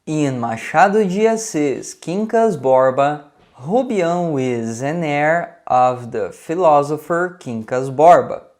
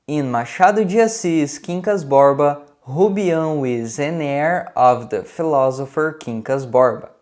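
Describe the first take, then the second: First: The sentence is spoken at a slower pace. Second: The sentence is spoken at a faster pace.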